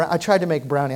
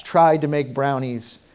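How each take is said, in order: First: Said in the usual way. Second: "tried" leaned on slowly, in all caps; slow phrase with "tried" emphasized; stress on tried. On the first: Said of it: "I'm gonna emphasize the word tried". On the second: Shown as a demonstration. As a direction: hit the word "tried" hard and slow. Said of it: "I'm gonna emphasize the word tried, all caps".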